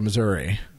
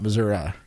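First: It uses the northern regional pronunciation. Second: It uses the southern regional pronunciation. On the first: This is how people north of the state say it. "up north of Missouri, they would say Missouri" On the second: This is how people in Kansas City and further south say it. "not Missouri. Missouri is more Kansas City and south"

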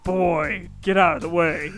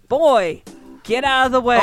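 First: It is said in a put-on deep voice. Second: It is said in a normal voice.

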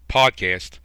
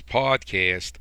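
First: The syllables are kept short and even. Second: One syllable is dragged out long. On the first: The speaker calls it right. "I'm going to say it properly" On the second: The speaker calls it wrong. "there I go again"

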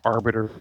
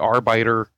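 First: The word is said with its standard pronunciation. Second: The word is said with an altered pronunciation. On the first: The speaker calls it right. "when the word is Arbiter" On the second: The speaker calls it wrong. "I say Arbiter"

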